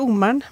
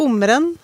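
First: The ending of the name is contracted. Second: The ending of the name is fully pronounced. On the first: This is a common way others say it. "typisk norsk sånn sammendragning på slutten" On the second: This is how the name's owner says it. "Jeg sier nok Ommeren"

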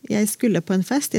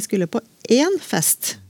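First: The word 'en' is unstressed. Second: The word 'en' is stressed. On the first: The speaker was going to some party. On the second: The speaker was going to only one party.

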